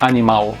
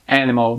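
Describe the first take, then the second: First: The stress falls on a later syllable. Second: The stress falls on the first syllable. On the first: This is the Portuguese pronunciation. "in Portuguese we say animal" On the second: This is the English pronunciation. "the beginning is stronger in English"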